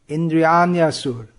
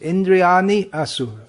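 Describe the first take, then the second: First: The two words flow together as one word. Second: The two words are said separately, word by word. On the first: "it flows, it's as one, it becomes one word" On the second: "when we read it word by word, it'll be Indriyani"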